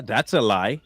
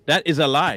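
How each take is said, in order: First: Said in the usual way. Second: "That is a lie" with a louder "That"; emphatic repeat. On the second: Real, not acted. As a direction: punch "That" and spell out "is".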